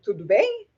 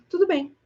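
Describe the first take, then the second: First: It is said with surprise, as a question. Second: It is said calmly, as plain acceptance.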